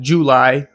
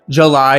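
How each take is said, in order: First: The first vowel has a U sound. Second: The first vowel has an A sound. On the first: The speaker calls it right. "not a U" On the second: The speaker calls it wrong. "like it has an A sound in it"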